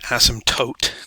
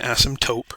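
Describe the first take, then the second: First: The final syllable ends with a T sound. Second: The final syllable ends with a P sound. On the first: The speaker calls it right. "that is an asymptote" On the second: The speaker calls it wrong. "not an asymptote"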